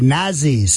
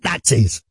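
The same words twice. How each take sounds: First: The middle consonant is a z sound. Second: The middle consonant is a ts sound. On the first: The speaker calls it right. "They tell me with the Z" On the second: The speaker calls it wrong. "don't pronounce it with a T"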